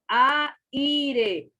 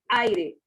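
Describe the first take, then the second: First: The a and i are split into two syllables. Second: The a and i are joined in one syllable. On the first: The speaker calls it wrong. "Usted no dice aire" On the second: The speaker calls it right. "sino aire"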